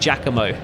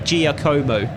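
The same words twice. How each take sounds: First: The syllables are run together smoothly. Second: Every syllable is pronounced separately and fully. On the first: The speaker calls it right. "the syllables should be combined, like" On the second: The speaker calls it wrong. "a typical English person pronouncing a foreign name"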